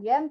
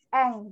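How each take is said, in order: First: The word begins with a y sound. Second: The word begins directly with the vowel. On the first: The speaker calls it wrong. "Jadi bukan yen" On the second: The speaker calls it right. "tapi eng gitu"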